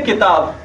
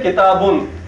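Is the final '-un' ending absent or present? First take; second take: absent; present. First: The word ends without the -un ending. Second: The word ends with the -un ending. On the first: The word is read on its own or at a stop. The speaker calls it right. "we say kitab" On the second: The word carries its full case ending. The speaker calls it wrong. "We don't say kitabun"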